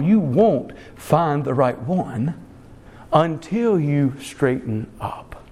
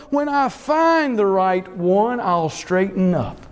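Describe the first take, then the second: First: Slow, low rebuttal with weight on "won't" and "until"; deliberate, low-pitched correction, "until" drawn out; emphatic rebuttal. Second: Lightly voiced young person, raised then falling; quoted young person. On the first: Real, not acted. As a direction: lean slowly on "won't", pause, then lower "until you straighten up". Preacher rebuts the young person's statement. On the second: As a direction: lightly imitate a young person putting things off. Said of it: "heard young people make a statement like this".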